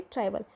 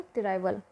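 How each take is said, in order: First: Said in the usual way. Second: "ट्राइबल" said like "तेरे बाल", as te-raibal; "ट्राइबल" with an extra vowel after the T; punning pronunciation. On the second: Shown as a demonstration. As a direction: split the opening of "ट्राइबल" into te-rai to make the pun. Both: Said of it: "यानी कि ट्राइबल".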